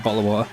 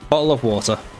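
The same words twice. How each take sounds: First: The t sounds are dropped. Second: The t sounds are clearly pronounced. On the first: "when I'm just not aware of it, I do say" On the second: "is what I say"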